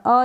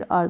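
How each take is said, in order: First: "अ" as a bare schwa, no r; R dropped. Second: "अर" as schwa plus a half r; half R sounded. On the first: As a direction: say "अ" leaving the r silent. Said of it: "दोनों तरीके से". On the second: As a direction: add a half r at the end of "अर". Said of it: "आर का sound half दे सकते हैं". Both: Shown as a demonstration.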